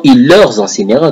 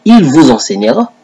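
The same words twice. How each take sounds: First: "leur" picked out firmly against "vous"; stress on LEUR. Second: "vous" picked out, questioning rise at the end; stress on VOUS. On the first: Correcting a rival's Bible wording, stress on "leur". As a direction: lean on "leur" to show the altered word. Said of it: "Quand on parle de leur". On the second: Quoting the classic Bible to a rival, stress on "vous". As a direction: set "vous" apart as the classic wording. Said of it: "comme dans la Bible classique, c'est écrit". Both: Shown as a demonstration.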